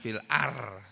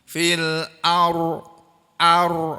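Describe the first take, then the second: First: The r is light and thin. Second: The r is heavy with rounded lips. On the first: The speaker calls it wrong. "jangan fil ar, jangan begitu" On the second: The speaker calls it right. "Ini huruf ro, ini huruf tebal. Jadi bahasanya harus monyong"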